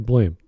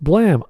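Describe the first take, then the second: First: The vowel is long, as in 'game'. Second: The vowel is short, as in 'ham'. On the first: "I use English and I say blame" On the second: "Maybe it's pronounced blam"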